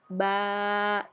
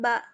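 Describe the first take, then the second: First: The vowel is held long, about two beats. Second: The vowel is short, about one beat. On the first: The speaker calls it right. "dibaca dua ketuk lebih panjang" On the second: The speaker calls it wrong. "dibacanya bukan ba"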